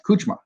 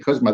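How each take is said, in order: First: The surname is said the Hungarian way. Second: The surname is said the American way. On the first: "If you're Hungarian, it's pronounced Kuchma" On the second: "Hungarians and I say Kuzma, they're like, no, that's wrong"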